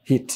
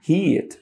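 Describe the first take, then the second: First: "হিট" with a short i; everyday short vowel. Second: Higher, stretched "হিট" with a long ee; long vowel. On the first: Teacher shows how locals say it, short vowel. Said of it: "আমরা এটাকে হিট বলি". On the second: Teacher corrects the local short form, long ee. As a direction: draw out the ee in "হিট", letting it fall. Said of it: "আর যদি short vowel দিয়ে বলি". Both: Shown as a demonstration.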